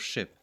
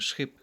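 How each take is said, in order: First: The word starts with a single plain sh. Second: The word starts with an s-ch cluster. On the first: This is the standard English pronunciation. "instead of ship" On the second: This is how heavily accented speakers say it. "In a heavy accent in English, you would indeed hear people simply saying schip"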